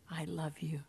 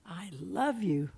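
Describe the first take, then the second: First: "I love you" breathed out as a soft unvoiced whisper. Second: Said in the usual way. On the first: Jesus whispering to mankind, fading into a whisper. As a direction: let it fade into a whisper. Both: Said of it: "saying to mankind".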